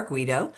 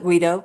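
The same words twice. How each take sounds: First: "Guido" said as GWEE-doh; alternate name pronunciation. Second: "Guido" said as GUY-doh; alternate name pronunciation. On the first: Mother gives the foundation's version of the name, "Guido" as GWEE-doh. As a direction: say "Guido" with a first syllable like "gwee". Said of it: "was pronounced Guido or". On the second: Mother shows how her son's surname was said, "Guido" as GUY-doh. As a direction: say "Guido" with a first syllable like "guy". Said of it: "last name was pronounced". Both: Shown as a demonstration.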